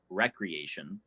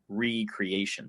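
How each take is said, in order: First: The word begins with a short 'rek' sound. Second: The word begins with a long 'ree' sound. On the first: The everyday word for leisure. "even though we pronounce it recreation" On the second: To create something new again. "the word really is recreation, to make new"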